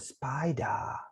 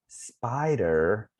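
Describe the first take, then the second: First: It is said with a British accent. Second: It is said without a British accent.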